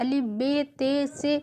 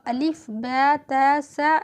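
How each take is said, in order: First: The letters end in 'e' sounds, Urdu style. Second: The letters end in 'a' sounds, Arabic style. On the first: The speaker calls it wrong. "Urdu में होता है" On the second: The speaker calls it right. "अरबी में होता है"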